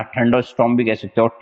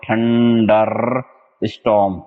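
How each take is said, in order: First: Said in the usual way. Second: थंडरस्टॉर्म drawn out very slowly, syllable by syllable; teacher slowly modelling थंडरस्टॉर्म for students; slow spelled-out pronunciation. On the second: Shown as a demonstration. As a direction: stretch थंडरस्टॉर्म out slowly for the class to copy.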